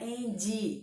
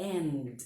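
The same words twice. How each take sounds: First: "end" with an I added, "EN-dji"; Brazilian extra I. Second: "end" stopping on a bare D; final D alone. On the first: Teacher mimics Brazilian learners' mistake, "end" with a final I. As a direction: say "end" as two syllables ending in a clear ee. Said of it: "tendência a colocar a letra I no final". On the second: Teacher corrects Brazilian learners, "end" with a clean final D. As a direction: say "end" as one syllable, no vowel after D. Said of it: "O som é de D". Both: Shown as a demonstration.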